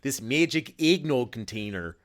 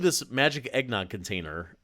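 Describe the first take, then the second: First: It is said in a thick Canadian accent. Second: It is said in a plain, neutral accent.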